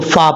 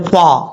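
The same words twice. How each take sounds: First: Upper teeth touch the lower lip for the f. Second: Both lips are rounded for the f sound. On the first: The speaker calls it right. "उन दो दांतों का किनारा नीचे वाले होंठ की तरी वाली जगह पे लगेगा तो फा पढ़ा जाएगा" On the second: The speaker calls it wrong. "बाज़ों का लोग पढ़ते हैं फा। ... दोनों होंठों को गोल कर देते हैं"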